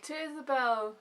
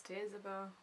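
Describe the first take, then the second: First: Raised, lifted toasting voice; group toast. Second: Soft, reluctant late toast; subdued toast from an upset old countess; Dowager Countess. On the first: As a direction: raise a glass as the whole party. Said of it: "everyone's like". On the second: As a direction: mumble the toast grudgingly, well under the others. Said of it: "you just hear the Dowager Countess". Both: Acted.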